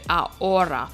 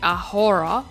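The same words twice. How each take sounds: First: The h at the start is silent. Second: The h at the start is sounded. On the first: The speaker calls it right. "H in Spanish is silent" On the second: The speaker calls it wrong. "we don't say ahora"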